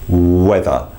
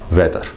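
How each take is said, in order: First: The opening w sound is held longer. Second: The opening w sound is short, not held. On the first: The speaker calls it right. "just hold on to that w a little bit more" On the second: The speaker calls it wrong. "Be careful, not"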